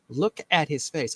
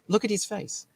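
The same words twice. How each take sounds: First: It is read in the speaker's ordinary accent. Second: It is read in a put-on British accent.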